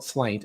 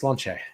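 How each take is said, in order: First: The word ends with a plain t sound. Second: The word ends with a ch sound and vowel. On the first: The speaker calls it wrong. "It's not slaint" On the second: The speaker calls it right. "it's slanche"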